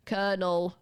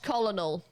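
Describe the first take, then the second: First: Colonel said like kernel; standard pronunciation. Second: Colonel read as spelt, col-o-nel; wrong spelling pronunciation. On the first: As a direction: say colonel in two syllables, with an R sound. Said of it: "you say it like colonel". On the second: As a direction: sound out both L's in colonel. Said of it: "Not colonel". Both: Shown as a demonstration.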